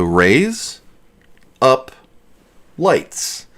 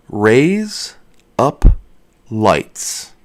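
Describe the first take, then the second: First: "Raise up lights" run together quickly so it sounds like "razor blades"; Raise up lights fast. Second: "Raise up lights" said slowly, each word spaced apart. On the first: Showing viewers the fast version that sounds like razor blades. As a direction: blur "Raise up lights" into one quick word. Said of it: "If you say that fast". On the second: Showing viewers the slow version of "Raise up lights". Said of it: "If you say". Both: Shown as a demonstration.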